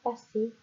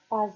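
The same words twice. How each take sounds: First: The middle consonant is a hissing S sound. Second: The middle consonant is a buzzing Z sound. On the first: The speaker calls it right. "mais on dit passer. Et là, on aura besoin du double S" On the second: The speaker calls it wrong. "on ne dit pas passer"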